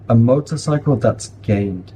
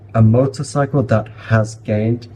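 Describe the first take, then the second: First: 'That has' is contracted to 'that's'. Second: 'That has' is said as two full words. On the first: The speaker calls it right. "Make sure you are contracting those smaller phrases" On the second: The speaker calls it wrong. "it just doesn't sound natural"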